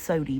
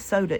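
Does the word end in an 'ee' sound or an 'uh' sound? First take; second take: ee; uh. First: The word ends with an 'ee' vowel. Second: The word ends with an 'uh' vowel. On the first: This is how it is said locally. The speaker calls it right. "it's sody" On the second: This is how other people say it. The speaker calls it wrong. "it ain't soda"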